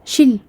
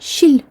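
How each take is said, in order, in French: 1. Le son l est passé trop vite. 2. Le son l est passé trop vite.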